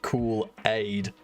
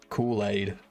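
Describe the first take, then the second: First: There is a gap between the two parts. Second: The two parts run together without a gap. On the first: The speaker calls it wrong. "I like how you put a space between the words there. It's not cool aid" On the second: The speaker calls it right. "It's one word"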